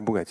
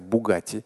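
First: The word is pronounced in a distorted, childlike way. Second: The word is pronounced the standard way. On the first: A small child is naming the car. The speaker calls it wrong. "Он какую-то машину там держит и говорит" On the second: This is the proper name of the car. The speaker calls it right. "послушай, это называется бугати"

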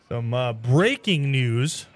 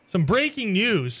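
First: It is said flat, with low energy. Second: It is said with lively, high energy.

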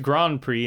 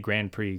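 First: Grand Prix is said with a French pronunciation. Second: Grand Prix is said with an English pronunciation. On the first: "Everyone says Grand Prix in the French pronunciation" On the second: "I just say Grand Prix"

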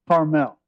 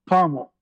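First: Carmel is said the Californian way. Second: Carmel is said the Southern way.

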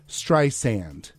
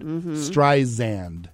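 First: The middle consonant is a hissing s sound. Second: The middle consonant is a buzzing z sound. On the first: The speaker calls it right. "when it's [name]" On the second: The speaker calls it wrong. "with like a Z sound"

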